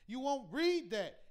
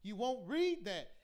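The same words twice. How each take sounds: The two takes are said the same way.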